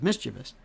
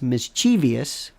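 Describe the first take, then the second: First: The word has three syllables, ending in -vous. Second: The word has four syllables, ending in -ee-ous. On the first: The speaker calls it right. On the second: The speaker calls it wrong.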